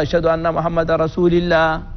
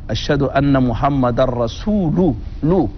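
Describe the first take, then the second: First: The 'l' of Allah carries an 'i' vowel. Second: The 'l' of Allah carries a 'u' vowel. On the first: "يكسر اللام" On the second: "بضم اللام"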